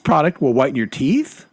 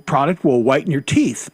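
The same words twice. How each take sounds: First: The voice rises at the end like a question. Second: The voice falls at the end like a statement. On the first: It sounds unsure, like a question. The speaker calls it wrong. "they end on an up, so it sounds like a question" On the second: It is a confident statement. The speaker calls it right. "but she doesn't say it like that"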